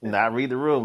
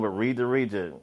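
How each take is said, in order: First: Room stressed and higher; not room. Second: Region stressed with a falling finish. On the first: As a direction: hit room to set it against region. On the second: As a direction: land on region as the correction. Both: Shown as a demonstration.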